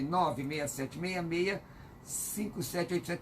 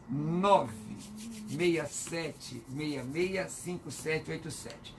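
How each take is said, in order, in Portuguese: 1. Os dígitos são lidos em ritmo normal e rápido. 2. Os dígitos são lidos devagar, com calma.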